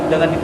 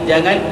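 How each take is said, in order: Both takes have the same delivery.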